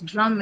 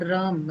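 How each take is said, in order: First: The vowel is short, as in cut. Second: The vowel is long, as in herd. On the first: The speaker calls it right. "It's drum" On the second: The speaker calls it wrong. "It's not drum, right?"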